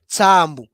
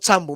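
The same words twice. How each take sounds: First: The vowel is said long. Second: The vowel is said short. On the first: The speaker calls it right. "mais Tsambu" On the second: The speaker calls it wrong. "Et non"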